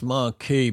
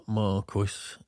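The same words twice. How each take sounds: First: Marquis with a silent S, mar-KEE. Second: Marquis read as written, MAR-kwiss. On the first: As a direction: say Marquis ending in "key". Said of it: "it's pronounced Marquis". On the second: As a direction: sound the "kw" and final S in Marquis. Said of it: "but it's written Mar". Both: Shown as a demonstration.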